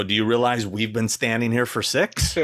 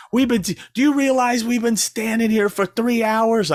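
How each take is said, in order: First: Said in the usual way. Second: Much higher and louder, whiny complaint; mocking complaining fan. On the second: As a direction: gripe about waiting in line.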